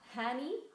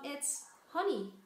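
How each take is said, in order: First: The first vowel sounds like 'eh' in Henny. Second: The first vowel sounds like 'uh' in honey. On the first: The speaker calls it wrong. "not so much like Henny" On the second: The speaker calls it right. "pronounced like honey"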